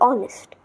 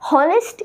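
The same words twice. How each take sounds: First: The word begins with a vowel, no H sound. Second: The word begins with an audible H sound. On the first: The speaker calls it right. "No H. Only honest" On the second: The speaker calls it wrong. "Honest is wrong"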